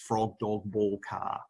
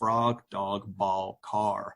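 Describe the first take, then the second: First: It is said in an Australian accent. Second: It is said in an American accent.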